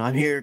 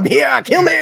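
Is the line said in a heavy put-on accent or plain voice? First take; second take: plain voice; heavy accent. First: It is said in a fairly plain voice. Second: It is said in a heavy put-on accent. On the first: The speaker calls it wrong. "Adrian Brody doing the whole" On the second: The speaker calls it right. "I can impersonate Arnie"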